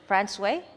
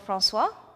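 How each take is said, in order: First: The name is said the Newfoundland local way. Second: The name is said without the Newfoundland pronunciation.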